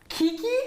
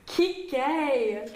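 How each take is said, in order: First: The name ends with an 'ee' sound. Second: The name ends with an 'ay' sound. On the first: This repeats how someone else said it. The speaker calls it wrong. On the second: This is how the name should be said. The speaker calls it right.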